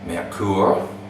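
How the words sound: It is said with a German pronunciation. "the correct German pronunciation of that is"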